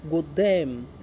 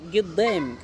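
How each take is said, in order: First: The first syllable begins with a 'gu' sound. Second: The first syllable begins with a 'gi' sound. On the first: "is a gu" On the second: "in other pronunciation, it's called Giddam"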